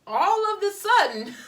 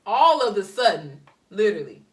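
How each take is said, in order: First: Higher, louder burst on all of the sudden; all of the sudden flung up high and loud in disbelief; exasperated outburst. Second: All of the sudden said through a laugh, louder. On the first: Exasperated repeat of phrase. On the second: Repeats phrase through laughter. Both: Real, not acted.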